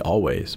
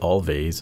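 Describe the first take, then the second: First: The name is said like always, without v. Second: The name is said with a v sound. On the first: The speaker calls it right. "it should be Always" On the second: The speaker calls it wrong. "I previously used to pronounce it Always because of the two V's"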